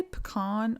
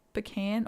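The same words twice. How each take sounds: First: First "pecan" said puh-KAHN; "pecan" with an open AH in the stressed last syllable. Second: Second "pecan" said puh-KAN; "pecan" with the short A of "can", stressed last. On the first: Asking viewers which they say, "pecan" as puh-KAHN. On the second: Asking viewers which they say, "pecan" as puh-KAN. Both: Shown as a demonstration. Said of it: "do y'all say pecan or pecan".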